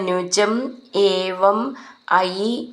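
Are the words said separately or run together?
separately. The words are said separately, one by one.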